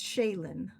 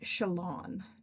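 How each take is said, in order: First: The last syllable has no 'aw' vowel. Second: The last syllable has an 'aw' vowel. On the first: The speaker calls it right. "I pronounce it as Shaylin" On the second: The speaker calls it wrong. "I just also hate the aw sound"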